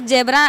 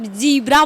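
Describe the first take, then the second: First: It is said the plain Indian way. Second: It is said the careful American way. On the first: This is how people say it at home. "यहाँ पर जेबरा" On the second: This is how they were taught to say it abroad. "बड़ा उच्चारण करके जीब्रा"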